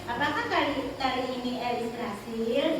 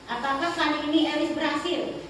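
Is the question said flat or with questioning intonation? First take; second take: questioning; flat. First: The sentence has a questioning intonation. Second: The sentence is said in a flat monotone. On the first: The speaker calls it right. "ada intonasinya ketika bertanya" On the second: The speaker calls it wrong. "monoton gitu"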